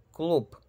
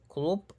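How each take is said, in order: First: Club as "kloop", final p; Russian devoiced ending. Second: Club with a fully voiced final b; wrong voiced ending. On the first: Teacher giving the Russian example, club ending in p. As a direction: close club sharply on voiceless p, pitched higher. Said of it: "Es club y no club". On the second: Teacher showing what to avoid, club ending in voiced b. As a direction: let the b of club hum. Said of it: "y no club". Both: Shown as a demonstration.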